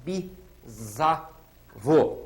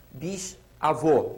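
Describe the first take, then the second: First: "Bisavô" very slowly, the S voiced as z; keep the z sound. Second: "Bisavô" drawn out slowly; slow demo word. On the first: Teacher slowly showing the z in "Bisavô". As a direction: draw out "Bisavô" keeping the z sound. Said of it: "mantendo inclusive a pronúncia". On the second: Teacher slowly pronouncing "Bisavô" for students. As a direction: stretch out "Bisavô" syllable by syllable. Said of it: "A palavra bisavô". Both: Shown as a demonstration.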